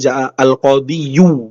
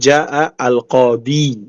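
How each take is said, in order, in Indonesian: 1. Kata itu diakhiri dengan bunyi 'yu' tambahan. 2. Kata itu berakhir pada bunyi 'i' biasa. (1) "Bukan ja'a al-qadiyu" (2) "tapi ja'a al-qadi"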